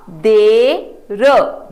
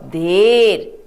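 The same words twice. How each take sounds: First: Drawn-out देर, each sound stretched; slow model reading. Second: Said in the usual way. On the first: Shown as a demonstration. Teacher to children, modelling the word slowly. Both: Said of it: "आओ अगला शब्द पढ़ें".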